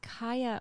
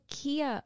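First: The name begins with a 'kai' sound. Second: The name begins with a 'kee' sound. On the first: The speaker calls it right. "it's Kaya Morris" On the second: The speaker calls it wrong. "I said Kia Morris"

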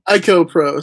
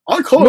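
First: It is said in a plain American accent. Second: It is said in a put-on British accent.

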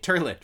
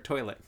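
First: The first vowel sounds like 'ur', as in turn. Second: The first vowel sounds like 'oi', as in boy.

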